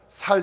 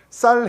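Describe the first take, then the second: First: The word starts with a plain s sound. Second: The word starts with a tense s sound. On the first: "쌀을 살이라고 한다면서요" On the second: "쌀 해봐"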